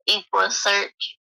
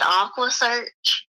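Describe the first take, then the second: First: The name begins with an 'eck' sound. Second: The name begins with an 'ah' sound. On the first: The speaker calls it right. "he mispronounced Equa Equa Search" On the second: The speaker calls it wrong. "And he said Aqua Search"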